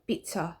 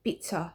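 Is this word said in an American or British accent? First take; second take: British; British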